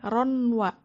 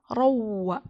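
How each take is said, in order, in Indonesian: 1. Bunyi n yang terpisah terdengar sebelum w. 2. Bunyi n menyatu menjadi bunyi w yang sengau. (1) "Nggak boleh ronwa" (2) "tapi harus rawa"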